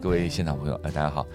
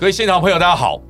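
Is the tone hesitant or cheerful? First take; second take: hesitant; cheerful. First: It is said hesitantly, without hope or energy. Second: It is said in a bright, cheerful tone.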